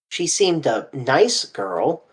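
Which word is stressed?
nice. The stress is on the word nice.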